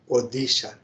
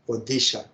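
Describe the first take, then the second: First: The middle consonant is a D sound. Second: The same.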